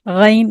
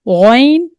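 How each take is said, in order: First: The first consonant is light and thin. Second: The first consonant is heavy and full. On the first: The speaker calls it wrong. "गैन नहीं" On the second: The speaker calls it right. "इसको पूर पढ़ना है"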